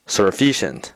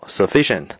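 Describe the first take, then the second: First: An r sound is added in the word. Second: The word has no r sound. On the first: The speaker calls it wrong. "念成sufficient" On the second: The speaker calls it right. "足够sufficient"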